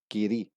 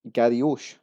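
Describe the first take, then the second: First: The name is said in a shorter form. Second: The name is said in a longer form. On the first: The speaker calls it right. "It's actually pronounced giri" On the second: The speaker calls it wrong. "we have what looks like garioche"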